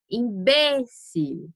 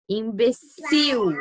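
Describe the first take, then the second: First: Imbécil said slowly, stressed on BÉ, im-BÉ-cil; Spanish Imbécil, stress on BÉ. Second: Imbecil said slowly, stressed at the end, im-be-CIL; slow im-be-CIL with the last syllable hit; Portuguese Imbecil, final stress. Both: Shown as a demonstration. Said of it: "heterotônicos".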